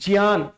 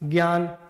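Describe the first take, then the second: First: The word begins with a j sound. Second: The word begins with a g sound. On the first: The speaker calls it right. "यहां पर है क्या, ज है। तो ये होना चाहिए" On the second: The speaker calls it wrong. "हम गया गया गया बोलते हैं"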